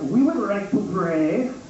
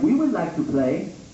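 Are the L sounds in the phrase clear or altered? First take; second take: altered; clear. First: The L sounds are replaced by another sound. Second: The L sounds are pronounced clearly. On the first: The speaker calls it right. "Everyone knows Asians can't make the L sound. We'd be more like" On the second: The speaker calls it wrong. "That's so unrealistic"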